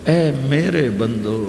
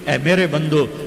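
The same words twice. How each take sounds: First: It is said in a warm, loving tone. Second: It is said in a plain, unaffectionate tone. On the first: The speaker calls it right. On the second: The speaker calls it wrong.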